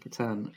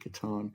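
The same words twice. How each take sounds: First: A northern English pronunciation, said slightly harder. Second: A southern English pronunciation, said slightly softer. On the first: "I'm originally from the north of England, so um, we pronounce the slightly uh, harder. So we would say Catan" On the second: "rather than Catan"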